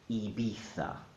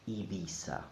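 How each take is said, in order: First: It is said in a Castilian Spanish accent. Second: It is said in a Latin American Spanish accent. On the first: "The Castilian pronunciation" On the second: "the Latin American pronunciation"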